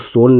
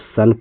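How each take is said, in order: First: The vowel is a long rounded oh sound. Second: The vowel is a short open uh sound. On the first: The speaker calls it wrong. "इसको सोन नहीं पढ़ते" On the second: The speaker calls it right. "इसको सन पढ़ते हैं"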